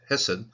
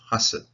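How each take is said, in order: First: The first vowel is an 'e' sound. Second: The first vowel is an 'a' sound. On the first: This is the ordinary form of the word. "the normal way of pronouncing this one is Hesed" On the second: This is the form used at the end of a verse.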